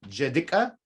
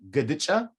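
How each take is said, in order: First: It starts with j and ends with ka. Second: It starts with g and ends with cha. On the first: "We can take this cha and make it a ka" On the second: "You can also say"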